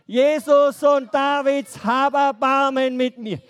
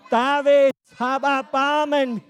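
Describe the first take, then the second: First: Loud pleading call, held out; loud cry for mercy. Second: A louder, slow desperate shout; louder cry. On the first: Children's teacher leads the blind man's cry. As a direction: call out loud, begging for help. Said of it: "Bei drei. Eins, zwei, drei". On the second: Blind man shouting louder so Jesus hears. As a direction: shout it out slowly, straining to be heard. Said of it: "Das muss schon lauter sein". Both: Shown as a demonstration.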